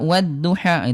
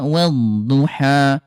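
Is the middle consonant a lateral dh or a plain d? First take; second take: plain d; lateral dh. First: The middle consonant is a plain d sound. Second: The middle consonant uses the tongue's side. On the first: The speaker calls it wrong. "wadduha bukan pakai dal, wadduha wadduha itu salah ya" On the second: The speaker calls it right. "wad ke pinggir ya"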